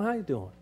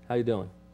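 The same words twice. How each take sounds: First: It sounds warm and genuinely interested. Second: It sounds like a quick, casual greeting. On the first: The speaker really wants to know how the other person is. "see my tone. ... he really does want to know" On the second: The speaker only means hello and does not want an answer. "that means hi"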